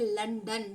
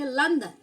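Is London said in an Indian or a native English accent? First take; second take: Indian; native English. First: It is said in an Indian English accent. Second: It is said in a native English accent. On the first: "We are Indians, we pronounce like a London" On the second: "What about the native speaker? They spell like a London"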